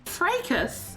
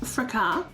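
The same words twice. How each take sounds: First: The word is said in an American accent. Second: The word is said in a non-American accent. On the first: The speaker calls it wrong. "Or if you're American" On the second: The speaker calls it right. "It's said um"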